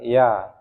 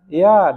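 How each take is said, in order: First: The word is said at a softer volume. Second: The word is said at a louder volume. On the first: The child agrees but does not move. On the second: The child is annoyed at being asked again.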